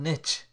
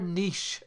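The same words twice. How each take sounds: First: It is said with an American pronunciation. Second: It is said with a non-American pronunciation.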